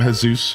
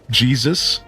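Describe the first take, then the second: First: The name is said with Spanish sounds, hay-SOOS. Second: The name is said with English sounds, JEE-zus. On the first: This is how the man's name is really said. The speaker calls it right. "you would pronounce it different" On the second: This is how the speaker wrongly said the name. The speaker calls it wrong. "like just outright"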